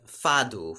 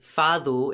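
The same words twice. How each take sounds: First: The middle consonant is a hard d sound. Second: The middle consonant is a soft th sound.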